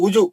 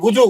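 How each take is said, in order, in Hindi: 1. पहला स्वर 'u' है, होंठ गोल करके। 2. पहला स्वर 'u' है, होंठ गोल करके।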